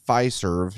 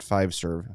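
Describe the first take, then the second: First: The first syllable has no v sound. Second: The first syllable ends with a v sound. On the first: The speaker calls it right. "Fiserv, not Five-Serve" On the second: The speaker calls it wrong. "not Five-Serve"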